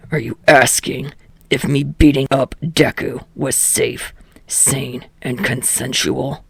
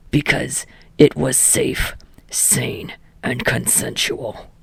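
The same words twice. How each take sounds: First: Low, sardonic asking voice; gruff Katsuki. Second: Low, whispered deadpan answer; deadpan mutter. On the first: Katsuki sarcastically questioning the teacher. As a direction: ask it low, deadpan and sarcastic. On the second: Katsuki answering his own question in a whisper. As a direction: mutter it under your breath, flat. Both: A narrator's reading.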